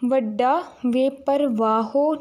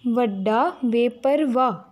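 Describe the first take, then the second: First: The last word ends with an added 'o' vowel. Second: The last word ends without any added vowel. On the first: The speaker calls it wrong. "नहीं बोलना" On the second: The speaker calls it right. "औंकड़ दी आवाज़ है उन्हों silent रखना है"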